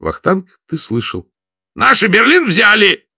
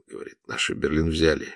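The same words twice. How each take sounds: First: High, loud joyful shout; louder. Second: Soft, hushed first take; whisper. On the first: Vladimir shouting to Vakhtang that Berlin has fallen, loud and high. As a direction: shout the news out, overjoyed. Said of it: "повторил громче". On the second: Vladimir hearing the radio, hushed whisper. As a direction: breathe it out in disbelief. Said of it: "шёпотом ответил Владимир". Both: A narrator's reading.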